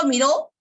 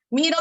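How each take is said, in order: First: "miró" with the last syllable lifted; stress on RÓ of miró. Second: "miro" with the first syllable lifted; stress on MI of miro. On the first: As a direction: hit the final RÓ in "miró". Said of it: "y acá en miró". (acento final en RÓ de «miró») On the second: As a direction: hit MI in "miro". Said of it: "la elevación de la voz en miro". (acento en MI de «miro») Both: Shown as a demonstration.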